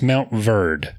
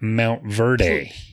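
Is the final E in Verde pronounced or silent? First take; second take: silent; pronounced. First: The final E of Verde is silent. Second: The final E of Verde is pronounced. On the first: The speaker calls it right. "but the E is silent" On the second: The speaker calls it wrong. "Not Mount Verde"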